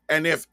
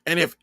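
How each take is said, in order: Both takes have the same delivery.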